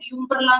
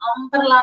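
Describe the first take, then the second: First: The word begins with a 'yoo' sound. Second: The word begins with an 'uh' sound. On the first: The speaker calls it wrong. "യുംബ്രല എന്ന് നമ്മൾ പറയില്ല ഒരിക്കലും" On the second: The speaker calls it right. "അംബ്രല എന്നാ പറയാ"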